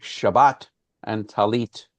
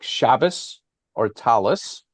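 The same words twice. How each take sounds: First: "Shabbat and Talit" slowly, with t endings. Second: "Shabbos or Talis" slowly, with s endings. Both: Shown as a demonstration.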